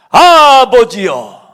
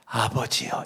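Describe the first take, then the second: First: It is said loudly and strongly. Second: It is said quietly and weakly.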